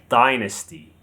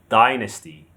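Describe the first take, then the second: Both takes have the same delivery.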